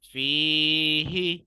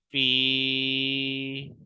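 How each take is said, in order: First: Long "fee", then sound the "hi" in "फीही"; without waqf. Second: Loud stretched "फी" closing on a soundless "h"; with waqf. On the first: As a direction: chant "फीही" loud and drawn out, two syllables. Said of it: "हम बगैर वक्फ के पढ़ेंगे". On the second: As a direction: chant "फी" as one long "feeh". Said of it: "वक्फ की सूरत में". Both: Shown as a demonstration.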